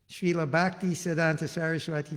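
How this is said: It is said with an American accent. "that's your bona fide American pronunciation"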